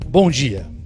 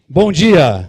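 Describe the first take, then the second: First: It is said in a weak, formal tone. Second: It is said loudly and with energy.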